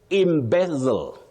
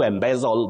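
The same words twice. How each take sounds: First: The first vowel sounds like a short i. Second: The first vowel sounds like eh. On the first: The speaker calls it right. "Just like you say" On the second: The speaker calls it wrong. "not to embezzle that we commonly hear around us"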